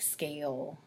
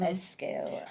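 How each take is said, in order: First: The word starts directly with the s sound. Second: An extra vowel sound comes before the s. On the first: "like scale"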